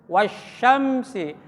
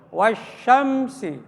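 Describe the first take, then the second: Both takes have the same delivery.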